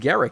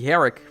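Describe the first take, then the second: First: The name begins with a hard G sound. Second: The name begins with an H sound. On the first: "I guess it's Garrick" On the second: "Or it could be a silent G. ... kind of Spanish"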